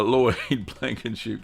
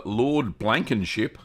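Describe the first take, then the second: First: "Lloyd" said clearly, with a laugh; corrected name Lloyd. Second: Name read as "Lord Blankenship", slowly; misread name Lord. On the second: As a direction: say "Lord" instead of Lloyd, a slip. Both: Real, not acted. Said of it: "No, Lloyd, not Lord".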